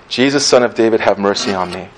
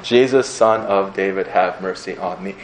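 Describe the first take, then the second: First: Said in the usual way. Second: "Jesus, Son of David, have mercy on me" spaced out evenly, each word separate; counted word by word. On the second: Shown as a demonstration. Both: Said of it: "How long is that?".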